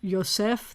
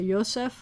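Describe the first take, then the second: First: The stress is on the last syllable. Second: The stress is on the first syllable. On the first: This is the modern Israeli pronunciation. "the accent would be on the last syllable" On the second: "you'd usually accent the first syllable"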